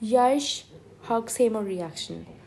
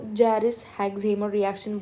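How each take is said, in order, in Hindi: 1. पहला शब्द Y की आवाज़ से शुरू होता है। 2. पहला शब्द J की आवाज़ से शुरू होता है। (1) "इसकी करेक्ट प्रोनाउंसिएशन जो मैंने अभी की है" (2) "यूजुअली लोग इसको जैरिस हेक्सहीमर रिएक्शन बोलते हैं"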